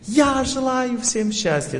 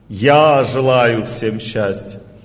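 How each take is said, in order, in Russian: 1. Произносится с сильной эмоцией. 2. Произносится простым личным голосом. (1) "Это звук эмоций" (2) "Есть звук моего ума или меня"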